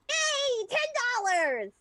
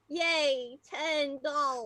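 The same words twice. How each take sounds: First: It is said happily and excitedly. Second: It is said glumly, with a frown.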